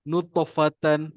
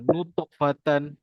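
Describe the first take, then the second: First: The t sound is light and flows on. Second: The t sound bounces with an extra vowel. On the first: The speaker calls it right. "Kalau kita baca ringan" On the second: The speaker calls it wrong. "kalau kita break"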